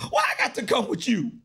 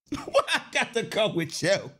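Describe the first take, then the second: First: Said in the usual way. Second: Chuckling as he repeats; laughing at his own question; laughing through it. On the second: Shown as a demonstration. Repeating the protest to the audience through laughter.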